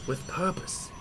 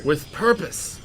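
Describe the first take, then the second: First: Soft, higher, sage-like mountain hermit; wise sensei voice. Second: A hint of a wise old teacher; wise sensei voice. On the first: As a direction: intone it like a wise old master. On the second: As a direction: say it like a calm martial arts master. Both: Shown as a demonstration. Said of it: "In my best sensei voice".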